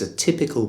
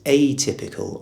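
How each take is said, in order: First: The first vowel is weak; stress falls on 'typ'. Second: The first vowel is clear and carries the stress. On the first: It is like others of its kind. "I'm almost swallowing the A sound, and all the stress is on the T of typical" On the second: It is unlike others of its kind. "the stress on the initial syllable is really important"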